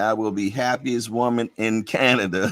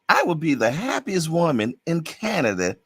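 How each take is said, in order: First: It is said in his own natural voice. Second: It is said in a put-on imitating voice. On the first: The speaker calls it wrong. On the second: The speaker calls it right.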